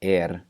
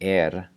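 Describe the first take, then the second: No difference in how they are said.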